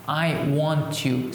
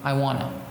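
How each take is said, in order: First: Each word is said carefully and separately. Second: The words are reduced and run together.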